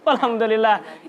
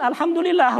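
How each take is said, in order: First: Said in the usual way. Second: Mock relieved. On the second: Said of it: "Kan begitu katanya".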